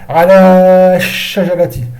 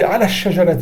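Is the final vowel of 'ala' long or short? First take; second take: long; short. First: The final vowel of ala is held long. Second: The final vowel of ala is shortened. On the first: The speaker calls it wrong. "on dit pas ala shajarati" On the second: The speaker calls it right. "On dit ala shajarati"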